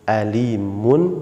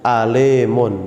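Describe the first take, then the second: First: The second vowel sounds like i. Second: The second vowel sounds like e. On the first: The speaker calls it right. "Tapi alimun, alimun, bukan alemun" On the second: The speaker calls it wrong. "tidak boleh kita ucapkan ... alemun"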